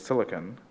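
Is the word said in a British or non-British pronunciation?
British. It is said in a British pronunciation.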